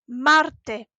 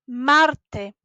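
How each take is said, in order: No difference in how they are said.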